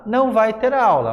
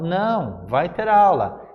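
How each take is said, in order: First: It is said without a pause after não. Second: It is said with a pause after não.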